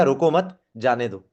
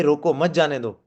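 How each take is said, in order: First: रोको मत run together, जाने दो separate; slow line, gap between मत and जाने दो; pause after मत. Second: रोको set apart from मत जाने दो; break after रोको. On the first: Trainer explaining the let-him-go meaning, pause after मत. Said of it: "और दूसरे में क्या हो गया". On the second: Trainer explaining the stop-him meaning, break after रोको. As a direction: urge रोको, then add मत जाने दो. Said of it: "इसमें क्या हो गया". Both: Shown as a demonstration.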